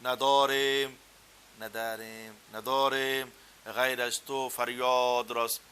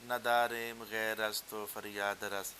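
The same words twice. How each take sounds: First: Persian accent, words stretched long and rounded, slow and loud; Persian-style recitation. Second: Persian verse read in a Punjabi accent, words not stretched; Punjabi-accented recitation of a Persian line; Punjabi-style Persian. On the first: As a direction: draw out and round every word like a native Persian. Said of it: "وہ لفظ لمبا کرنا، گول کرنا". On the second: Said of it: "ایک Punjabi style کے اندر پڑھ کے بتاتا ہوں". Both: Shown as a demonstration.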